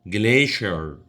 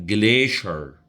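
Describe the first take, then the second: First: It is said with an American English pronunciation. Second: The same.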